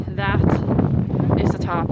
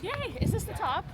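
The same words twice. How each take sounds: First: Said in the usual way. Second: High, bright cheer; excited. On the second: Pretend. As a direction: cheer as if the top is reached. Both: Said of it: "Just kidding".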